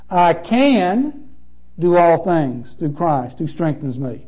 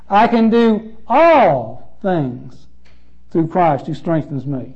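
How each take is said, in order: First: The stress falls on the word can. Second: The stress falls on the word all.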